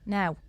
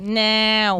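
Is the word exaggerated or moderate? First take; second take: moderate; exaggerated. First: The word is said moderately. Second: The word is strongly exaggerated.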